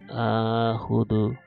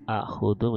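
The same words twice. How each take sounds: First: The first vowel is drawn out long. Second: The first vowel is short.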